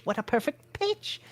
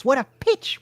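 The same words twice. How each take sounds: First: Softer savoring. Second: Excited exclaim. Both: A narrator's reading.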